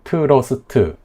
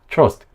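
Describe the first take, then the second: First: It is said with four syllables, vowels added. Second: It is said as one syllable, consonants bare. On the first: The speaker calls it wrong. "콩글리시 발음이라고 생각을 하면 이렇게 뭐 트러스트, 스트리트 이렇게 사음절로" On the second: The speaker calls it right. "그냥 이 한 칸 음절 하나라고 생각하고"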